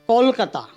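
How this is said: The first vowel is a rounded 'o' sound. "म्हणजे ओचा उच्चार जास्त होतो त्या ठिकाणी"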